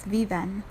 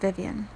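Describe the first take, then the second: First: The name is pronounced with Spanish sounds. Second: The name is pronounced with English sounds. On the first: "If you pronounce it in the Spanish interpretation" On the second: "in English, it's just Vivian"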